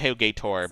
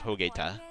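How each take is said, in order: First: The name ends with an r sound. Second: The name ends with a plain vowel. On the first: The speaker calls it wrong. "It's not really Hogator" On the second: The speaker calls it right. "but it's Hogeta"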